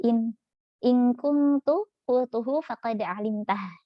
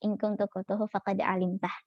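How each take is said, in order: First: Slow, drawn-out recitation of the verse; Quran recitation. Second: Said in the usual way. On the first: Acted. Teacher quoting the prophet's reply, slow recitation. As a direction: let each Arabic word stretch out reverently.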